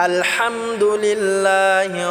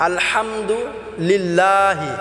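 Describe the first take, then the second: No difference in how they are said.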